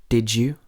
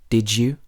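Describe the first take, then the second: No difference in how they are said.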